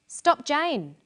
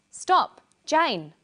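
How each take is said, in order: First: "Stop, Jane." run together in one breath, falling on "Jane."; no pause. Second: Loud high "Stop," then a pause before "Jane."; pause after stop. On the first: Teacher showing the sentence with no comma, run together. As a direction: say "Stop, Jane." as a single command without a break. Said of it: "there is no pause and no comma". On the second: Teacher showing a comma as a pause, loud call. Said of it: "the comma shows where there is a pause in speech". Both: Shown as a demonstration.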